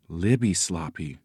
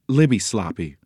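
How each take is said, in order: First: Soft, lower echo; quiet, wondering echo; awed repetition. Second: Said in the usual way. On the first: A narrator's reading. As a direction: repeat the name in hushed wonder. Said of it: "Nancy repeated, her eyes wide". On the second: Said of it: "The woman nodded briskly".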